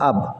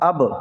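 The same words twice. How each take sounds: First: The final b is closed without an echo. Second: The final b bounces with an echo. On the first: The speaker calls it wrong. "কলকলা না হলে হতো হলো আব" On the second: The speaker calls it right. "এই প্রতিধ্বনি করে পড়তে হয়"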